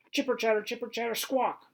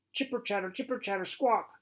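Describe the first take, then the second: First: High, loud chattering squirrel screech. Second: High squeaky squirrel chatter. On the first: Acted. Squirrel screeches at the dog to taunt him, high chattering squawk. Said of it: "he screeches". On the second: A narrator's reading. Narrator mimics squirrel noise to the listener, high chattering screech.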